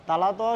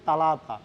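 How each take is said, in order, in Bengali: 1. শব্দটি 't' ধ্বনি দিয়ে বলা হয়। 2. শব্দটি 't' ধ্বনি দিয়ে বলা হয়।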